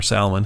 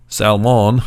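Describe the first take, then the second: First: "Salmon" as SAL-mun, weak second vowel; alternative pronunciation. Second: "Salmon" as SAL-MAHN, full second vowel; alternative pronunciation. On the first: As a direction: say "Salmon" casually with a reduced "mun" ending. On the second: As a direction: say "Salmon" louder, with a clear "mahn" ending. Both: Shown as a demonstration. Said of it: "however you wanna say that".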